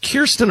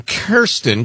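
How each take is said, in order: First: Kirsten said as KUR-stin; Kirsten starting like "curse"; first syllable KUR. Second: Kirsten said as KEER-stin; Kirsten rhyming its first syllable with "here". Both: Shown as a demonstration. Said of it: "can be pronounced Kirsten or Kirsten".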